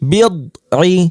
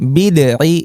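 First: The consonant is held closed without any bounce. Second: The consonant bounces and sounds like a plain d. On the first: The speaker calls it right. "আমাদের উচ্চারণটা বন্ধ রাখতে হবে, বাউন্স করবে না" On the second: The speaker calls it wrong. "এটা বললে কিন্তু ভুল হবে, তাহলে এখানে দাল হয়ে যাবে"

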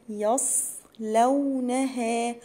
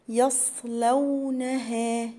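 No difference in how they are said.

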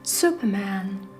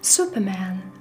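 First: The word is said with English pronunciation. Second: The same.

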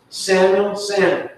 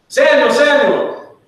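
First: It is said flatly, without exclamation. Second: It is called out loudly, as an exclamation.

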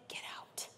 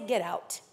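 First: It is whispered. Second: It is spoken aloud, calm but fierce.

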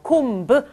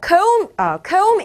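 First: The final b sound is pronounced. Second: The final b sound is silent. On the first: The speaker calls it wrong. "comb 아니고요" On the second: The speaker calls it right. "comb에서 이 b 소리 나지 않아요"

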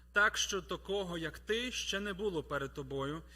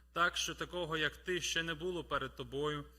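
Both takes have the same delivery.

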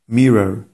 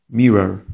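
Both takes have the same delivery.

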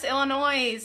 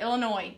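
First: The word ends with an audible S sound. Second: The word ends without an S sound. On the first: The speaker calls it wrong. "I said it with an S" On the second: The speaker calls it right. "It's Illinois"

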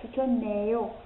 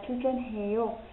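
First: The n links into the last syllable. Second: The last syllable keeps its h sound. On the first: "Nếu như chúng ta nối qua thì đọc là chú trơn nèo" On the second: "hoặc là"

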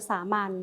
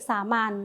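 The two takes are said the same way.

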